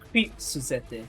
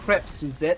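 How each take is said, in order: First: The first word sounds like 'creep'. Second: The first word sounds like 'crep'. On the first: The speaker calls it wrong. "I think I'm reading it wrong" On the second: The speaker calls it right. "Is it like"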